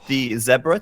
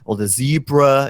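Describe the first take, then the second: First: Zebra is said the British way, not American. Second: Zebra is said the American way.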